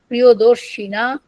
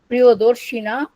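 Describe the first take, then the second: The two takes are said the same way.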